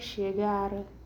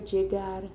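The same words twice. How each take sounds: First: The word begins with an sh sound. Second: The word begins with a j sound. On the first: "el sonido de la S H" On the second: "el sonido de D J"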